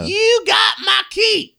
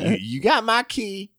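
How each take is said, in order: First: It is said in an angry tone. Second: It is said in a sad tone.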